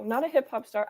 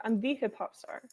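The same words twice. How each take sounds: First: "a" picked out as the wrong word; correcting, with weight on "a"; stress on A. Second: "the" said as an emphatic thee; correcting, with full-vowel weight on "the"; stress on THE. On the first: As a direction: lean on "a" to reject it. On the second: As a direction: lean on "the" as the one and only. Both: Shown as a demonstration.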